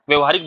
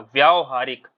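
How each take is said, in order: First: The first vowel is short. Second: The first vowel is long. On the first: The speaker calls it wrong. "व्यवहारिक बोलकर निकल जाते होगे" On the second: The speaker calls it right. "सही उच्चारण क्या है इसका? ... वा आधी वाह, फिर या पे बड़ा आ की पाई"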